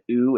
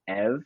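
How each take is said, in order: First: The prefix sounds like 'you', with no v. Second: The prefix sounds like 'ev', ending in v. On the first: "instead of U" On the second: "the V is pronounced as a V. So instead of U, it's Ev"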